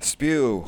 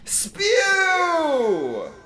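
First: It is said weakly, without force. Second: It is said forcefully, like a warning.

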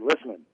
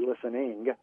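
First: The final g sound is dropped. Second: The final g sound is clearly pronounced. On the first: "sometimes I will lose that G" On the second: "I do not say listening"

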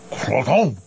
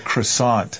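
First: It is said with a French pronunciation. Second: It is said with an English pronunciation.

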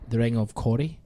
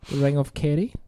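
First: Kerry has an 'oh' vowel, as in sorry. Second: Kerry has an 'eh' vowel, as in berry. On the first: The speaker calls it wrong. "I should have said it like the Ring of Corrie" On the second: The speaker calls it right. "I said that right"

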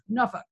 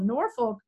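First: It is pronounced the way locals say it. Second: It is pronounced the way outsiders say it. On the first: This is how residents say it. The speaker calls it right. "but we actually say it like Norfolk" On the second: This is how people from elsewhere say it. The speaker calls it wrong. "what some people call Norfolk"

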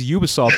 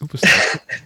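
First: The word begins with a 'yoo' sound. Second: The word begins with an 'oo' sound. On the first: The speaker calls it wrong. "If it was Ubisoft, it would start with a Y-O" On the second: The speaker calls it right. "It's Ubisoft. Trust me on this name"

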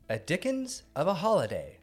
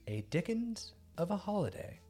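First: The title is said excitedly, like an exclamation. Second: The title is said flatly, without excitement.

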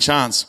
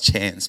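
First: It is said with a South Australian accent. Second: It is said with a New South Wales accent.

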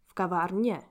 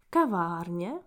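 First: The stress is on the last syllable. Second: The stress is on the first syllable. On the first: "to the last syllab" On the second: "the accent is moving from the first to the last syllab"

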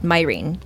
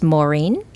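First: The name is said with a non-Irish, anglicized pronunciation. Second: The name is said with the traditional Irish pronunciation. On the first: This is how her family says the name. "my parents are not Irish, and so they pronounce it Mairin" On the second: This is how the name is said in Ireland. "a true Irish pronunciation of my name is Mairin"

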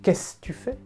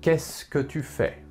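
First: It is said quickly with words contracted. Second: Each word is pronounced carefully and fully.

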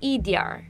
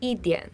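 First: It ends with an r-coloured, merged final. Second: It ends plainly, without any r sound.

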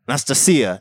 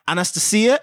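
First: The name is said with the native Russian pronunciation. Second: The name is said with a non-Russian pronunciation. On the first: The speaker calls it right. "And she would be like, no" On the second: The speaker calls it wrong. "we're going to get this right"

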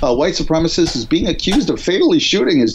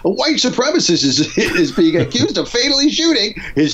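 First: It is read in a plain, normal voice. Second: It is read in a put-on sitcom voice.

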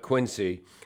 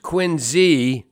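First: The middle consonant is an S sound. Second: The middle consonant is a Z sound. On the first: The speaker calls it wrong. "not Quincy" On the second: The speaker calls it right. "It's pronounced Quincy"

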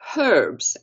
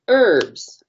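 First: The word starts with a pronounced H. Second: The word starts with a silent H.

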